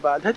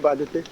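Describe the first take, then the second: First: The word ends without a final 'e' vowel. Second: The word ends with a final 'e' vowel. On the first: The intended word with its proper meaning. The speaker calls it right. "कहना चाहिए बाधत" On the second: The meaning of the word changed. The speaker calls it wrong. "बोल गए बाधते"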